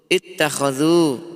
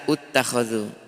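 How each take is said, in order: First: The word begins with the vowel i. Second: The word begins with the vowel u. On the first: The speaker calls it right. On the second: The speaker calls it wrong.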